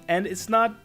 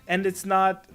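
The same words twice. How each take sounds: The two takes are said the same way.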